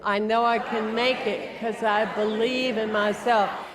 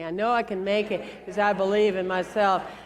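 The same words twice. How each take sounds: First: It is said forcefully, with more energy. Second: It is said calmly, without extra force.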